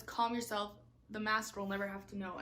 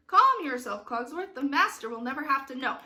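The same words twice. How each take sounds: First: Said in the usual way. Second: Acted stage reply. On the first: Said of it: "And he says". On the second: Shown as a demonstration. Director voices the reply to Cogsworth, emphatic. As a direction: cut in on the fretting, then hurry on.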